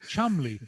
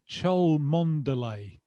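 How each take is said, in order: First: The name is shortened to two syllables. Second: The name is said with every spelled syllable. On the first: The speaker calls it right. "It's Chumley" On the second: The speaker calls it wrong. "You don't say it like that"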